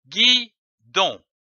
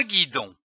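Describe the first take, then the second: First: "guidon" in two separate beats, gui, then don; split into syllables. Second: Said in the usual way. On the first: Shown as a demonstration. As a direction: say "guidon" syllable by syllable, pausing between. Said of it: "L'association de ces syllabes donne".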